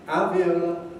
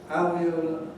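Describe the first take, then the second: The two takes are said the same way.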